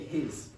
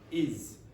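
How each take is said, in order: First: The word begins with an h sound. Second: The word begins without an h sound. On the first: "I didn't say his" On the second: "I said is"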